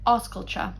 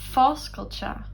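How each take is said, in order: First: It is said in the standard dialect form. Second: It is said in the Ulster dialect form.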